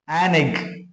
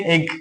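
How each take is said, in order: First: "an egg" said slowly, "an" linked onto "egg"; article demo. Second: Said in the usual way. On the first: Shown as a demonstration. Teacher models "an egg" for the class, carefully. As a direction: model "an egg" with "an" run into the vowel. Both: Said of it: "To emphasize sound".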